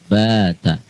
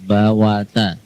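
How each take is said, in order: First: No w sound is pronounced in the middle. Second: A w sound is pronounced in the middle. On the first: The speaker calls it right. "tapi bata" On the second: The speaker calls it wrong. "bukan bawata"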